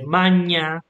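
It is pronounced the Italian-like ecclesiastical way. "you would say Magna instead of Magna. It will sound more like Italian"

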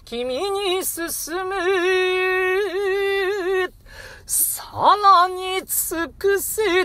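A long pause with a deep breath separates the phrases. The urge to press on sounds weaker. The speaker calls it wrong. "たっぷり間を空けると、さらに尽くせという気持ちが弱まってしまうんですね"

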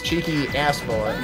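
The stress falls on the word ass. "there was the emphasis on ass"

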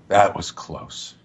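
It sounds worn out and shaken. The character has just been through an ordeal. The speaker calls it right. "someone who sounds like they've just been through an ordeal"

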